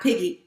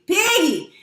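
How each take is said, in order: First: Said in the usual way. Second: High, drawn-out "Piggy"; PIGGY sung out high, then falling; nickname said playfully. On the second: Shown as a demonstration. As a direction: stretch "Piggy" out with a high swoop. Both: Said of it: "not Piggy".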